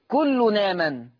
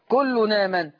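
First: The n runs straight into the second word. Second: The n runs straight into the second word.

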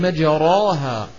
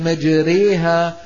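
First: The vowel after r stays an open a. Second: The vowel after r leans toward ee. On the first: "مع كونها أصلها الفتح" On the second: "الإمالة أيضا من دواعي الترقيق"

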